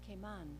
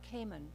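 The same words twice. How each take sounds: First: The stress is on the second syllable. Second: The stress is on the first syllable. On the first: "you pronounce it Cayman" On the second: "with the accent on the first syllable"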